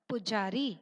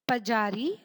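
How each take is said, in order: First: The first syllable has a short 'u' vowel. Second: The first syllable has a short 'a' vowel. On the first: The speaker calls it right. "तो शब्द बना पुजारी" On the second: The speaker calls it wrong. "बिना ऊ की मात्रा लगाए"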